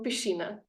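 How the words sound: The middle consonant is an sh sound. "řeknou pišina"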